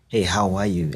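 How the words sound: It is said warmly and with real interest.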